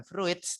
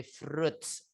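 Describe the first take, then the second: First: "fruits" said as fru-its; two-syllable "fruits", as it is spelt; mispronunciation demo. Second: "fruits" drawn out slowly as froots; one long syllable in "fruits", softer; correct pronunciation. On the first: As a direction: sound the i in "fruits" separately. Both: Shown as a demonstration. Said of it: "Sekali lagi bukan fruits".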